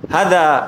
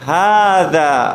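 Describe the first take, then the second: First: The first vowel is short and clipped. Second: The first vowel is drawn out long. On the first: The speaker calls it wrong. "আমি যদি এটা বলতাম হাদা হাদা, তাহলে এটা কি হবে? ভুল।" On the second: The speaker calls it right. "হাতও একালিফ টানতে হবে।"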